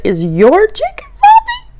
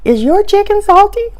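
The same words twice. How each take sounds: First: Asking again much higher and slower, pitch climbing; the second time, pushed up high and drawn out; insistent high question. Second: Polite question. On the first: Asking across the table again, insistent and high. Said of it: "lean across the table and say". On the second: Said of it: "lean over to the lady and go". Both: Retold or imitated.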